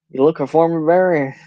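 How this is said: It is said with a southern twang.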